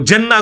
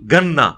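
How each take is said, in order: First: The word begins with a j sound. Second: The word begins with a hard g sound. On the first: This is the standard Arabic way of saying it. "वो जन्ना को जीन को गाफ" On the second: This is the Egyptian Arabic way of saying it. "मिस्र के लोग"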